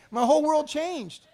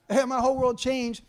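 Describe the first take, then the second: First: Dramatic emphasis. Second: Laughing repeat. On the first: Retelling a life-changing moment. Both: Retold or imitated.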